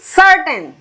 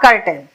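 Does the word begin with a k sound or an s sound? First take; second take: s sound; k sound. First: The word begins with an s sound. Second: The word begins with a k sound. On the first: The speaker calls it right. "सी के साथ ई सर्टेन" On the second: The speaker calls it wrong. "Not कर्टेन"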